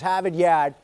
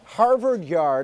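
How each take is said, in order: First: It is said in a local Boston accent. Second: It is said in a general American accent.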